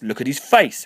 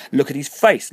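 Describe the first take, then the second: First: Loud repeated scream, a little less high; screamed again. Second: High, loud frantic scream. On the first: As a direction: keep screaming the same words. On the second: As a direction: shriek it as if seeing a skull. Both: A narrator's reading. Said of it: "Harriet screamed".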